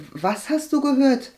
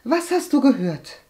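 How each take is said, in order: First: Higher-pitched, hesitant query; puzzled question. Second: Higher, insistent demand; pressing question. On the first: Agathe asks her cousin about rumours, puzzled. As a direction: ask it curiously, not yet pushing. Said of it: "fragte Agathe". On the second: Agathe presses her reluctant cousin again, insistent. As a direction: press for the answer, impatient. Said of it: "drängte Agathe". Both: A narrator's reading.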